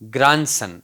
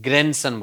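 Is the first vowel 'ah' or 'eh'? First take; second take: ah; eh. First: The first vowel sounds like 'ah'. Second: The first vowel sounds like 'eh'.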